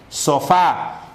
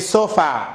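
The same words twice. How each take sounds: First: The stress is on the last syllable. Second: The stress is on the first syllable. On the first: The speaker calls it right. "el acento se halla en la última sílaba" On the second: The speaker calls it wrong.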